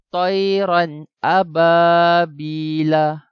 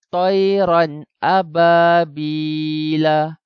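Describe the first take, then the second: No difference in how they are said.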